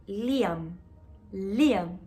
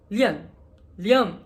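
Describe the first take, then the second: First: "Liam" with a clear i, an open a and a final m; her own way of saying Liam. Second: "Liam" said like "Lion", the ending closing to a nasal -on; Brazilian way of saying Liam. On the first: Shown as a demonstration. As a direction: say "Liam" as Lee-am, every sound clear. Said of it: "lo pronuncian como yo". ("Liam" pronunciado a la mexicana, Li-am, con la m final) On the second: Retold or imitated. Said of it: "aquí en Brasil pronuncian Liam". ("Liam" pronunciado a la brasileña, como "Lion")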